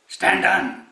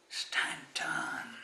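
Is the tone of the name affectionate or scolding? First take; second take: scolding; affectionate. First: The name is called in a stern, scolding tone. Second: The name is called in a soft, affectionate tone. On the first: The listener has done something wrong. "what have I done wrong. ... Why is he scolding me?" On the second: The caller feels fond and tender toward the listener. "Swamiji is feeling uh, mushy-mushy today"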